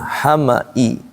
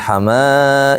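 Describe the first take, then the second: First: The middle vowel is short, read straight through. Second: The middle vowel is lengthened like a long vowel. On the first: The speaker calls it right. "Ini bacanya hama'i langsung" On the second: The speaker calls it wrong. "Jangan hamai ya"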